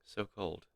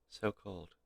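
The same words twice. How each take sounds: The two takes are said the same way.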